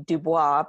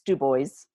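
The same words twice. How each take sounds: First: The name is said with French pronunciation. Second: The name is said with local American pronunciation. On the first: This is the usual pronunciation of the French word. "It's a French word, and normally it would be Dubois" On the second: This is how the town's residents say it. "but in Wyoming, it's Dubois"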